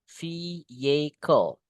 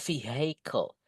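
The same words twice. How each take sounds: First: The h sound in the middle is silent. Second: The h sound in the middle is pronounced. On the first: The speaker calls it right. "Hanya nggak usah dibaca teman-teman. Just say vehicle is the correct one" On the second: The speaker calls it wrong. "bukan vehicle"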